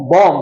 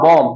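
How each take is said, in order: First: "বম" with a b sounded at the end; the old way. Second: "বম" ending on m, silent b; the new way. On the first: Teacher recalls what we used to say, final b in "বম". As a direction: add the final b to "বম". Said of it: "আগে কি বলতাম". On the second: Teacher models what to say from now on, silent b in "বম". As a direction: close "বম" on m, no b. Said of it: "এখন থেকে আমরা কি বলবো". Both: Shown as a demonstration.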